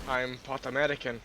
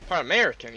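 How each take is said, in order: First: A first try at an American accent; lightly put-on American accent; American accent attempt. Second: Louder, punchier American accent; second try at American, hit harder; put-on American accent with more force; American accent attempt. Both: Shown as a demonstration. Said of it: "I can do a different American accent".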